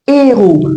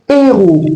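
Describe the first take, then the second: The two takes are said the same way.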